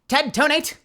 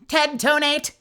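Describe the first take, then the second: First: It is said in an ordinary human character voice. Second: It is said in a harsh, robotic Dalek-like voice. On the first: "I think I accidentally made them sound similar" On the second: "Maybe a Dalek"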